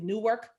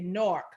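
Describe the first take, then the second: First: Newark is said the Brooklyn way. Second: Newark is said the Newark local way.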